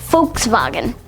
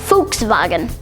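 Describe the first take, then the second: First: It is said with German-style sounds. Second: It is said with German-style sounds.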